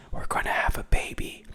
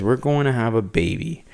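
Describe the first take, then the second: First: Soft breathy secret whisper; hushed confession of pregnancy. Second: Said in the usual way. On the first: Retold or imitated. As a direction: whisper it close, like a secret to Harvey. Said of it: "And she just whispers". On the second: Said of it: "This woman says".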